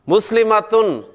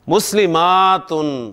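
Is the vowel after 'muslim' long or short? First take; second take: short; long. First: The vowel after 'muslim' is short. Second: The vowel after 'muslim' is long. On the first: "एक मुसलमान मोन्नस" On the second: "दो से जायद"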